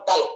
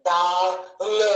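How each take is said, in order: First: Said in the usual way. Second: డల్ stretched apart as "డా... ల్"; డల్ broken into డా and ల్; split into two parts. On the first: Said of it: "ఒకేసారి పలికాం". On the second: Shown as a demonstration. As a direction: hold డా, pause, then a separate ల్. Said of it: "అంటే ఒకేసారి పలికాం మనం".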